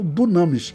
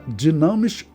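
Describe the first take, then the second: First: The first vowel sounds like 'oo'. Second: The first vowel sounds like 'ee'. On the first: "ou dunamis" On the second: "Pode pronunciar dinamis"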